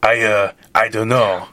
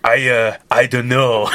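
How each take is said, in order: First: Playful put-on French accent, a bit louder; voicing Lafayette with a hammed-up French accent. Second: Put-on laughing through a playful French accent, louder; mock French Lafayette, half-laughing. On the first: Playing Lafayette in the fan fiction in a mock French accent. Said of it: "He whispered with his French accent". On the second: Reading Lafayette's line to the co-host in a laughing French accent. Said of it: "You don't have to do the French accent".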